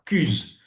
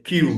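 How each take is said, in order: First: "cuse" drawn out with French u, no glide; French-style mispronunciation. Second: "cues" with a y-glide into "oo"; correct English sound. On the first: (« cuse » traînant, avec u français) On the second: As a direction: say "cues" as k-you-z. (« cues » prononcé kiou-z) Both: Shown as a demonstration. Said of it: "C'est pas cuse".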